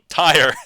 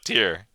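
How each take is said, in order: First: It is said in two syllables, rhyming with tie. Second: It is said in one syllable, rhyming with pier. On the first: Someone who ties things. "one who ties" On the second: A row or level. "but tier"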